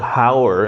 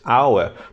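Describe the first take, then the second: First: The word begins with an audible h sound. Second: The word begins directly with a vowel sound. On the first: The speaker calls it wrong. "the sound here is not hour" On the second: The speaker calls it right. "it is hour. The vowel sound is here, H is silent"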